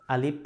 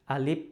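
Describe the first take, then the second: The two takes are said the same way.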